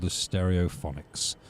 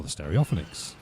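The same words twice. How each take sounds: First: Stereophonics as STEH-ree-oh-FON-iks; usual pronunciation of the name. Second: Stereophonics as steh-ree-OFF-uh-niks; low, quiet aside, Stereophonics run together as steh-ree-OFF-uh-niks; joke mispronunciation. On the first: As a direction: say Stereophonics in two halves, stereo plus phonics. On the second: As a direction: say Stereophonics with the stress shifted onto OFF. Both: Shown as a demonstration. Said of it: "it's an old joke".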